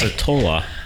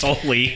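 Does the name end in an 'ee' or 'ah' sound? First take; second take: ah; ee. First: The name ends in an 'ah' sound. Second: The name ends in an 'ee' sound. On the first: The speaker calls it right. "It's Atola. Because of Sharona" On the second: The speaker calls it wrong. "It's I not just"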